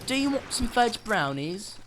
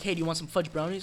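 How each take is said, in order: First: It is said in an odd put-on voice. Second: It is said in his normal voice.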